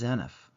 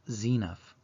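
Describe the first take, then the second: First: The first E is said short. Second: The first E is said long. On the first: The speaker calls it wrong. "I've always pronounced it as Zeniff" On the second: The speaker calls it right. "the E is long, so it should be pronounced Zeniff"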